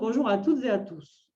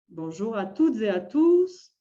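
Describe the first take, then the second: First: The voice drops low at the end. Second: It is said as a lively exclamation. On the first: It is a plain statement ending with a full stop. "Un point, on baisse la voix" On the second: It is an exclamatory greeting. "ça pourrait être avec un point d'exclamation"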